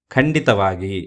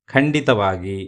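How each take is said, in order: Both takes have the same delivery.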